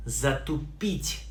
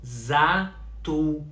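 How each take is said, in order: First: Said in the usual way. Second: Затупить in three slow, separated syllables; slow pronunciation demo. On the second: Shown as a demonstration. Teacher repeats затупить for learners, very slowly by syllable. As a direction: sound out за, ту, пить in затупить.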